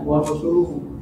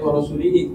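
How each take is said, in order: First: The vowel after the L is u. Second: The vowel after the L is i. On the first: The Messenger likewise disowns the idolaters. The speaker calls it right. "yang dimaksud di sini adalah" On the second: God disowns the Messenger along with the idolaters. The speaker calls it wrong. "Kalau kita baca wa rasulihi, jadi fatal kan?"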